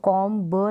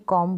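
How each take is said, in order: First: A b sound is pronounced at the end. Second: The word ends on m, b silent. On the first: The speaker calls it wrong. "इसको कॉम ब नहीं बोलेंगे" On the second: The speaker calls it right. "कॉम बोलेंगे"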